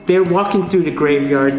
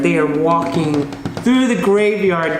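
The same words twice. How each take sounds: First: Said in the usual way. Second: Drawn out slowly, each word weighted; slow it down for suspense; spooky slow storyteller emphasis; slow emphatic retelling. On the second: Shown as a demonstration.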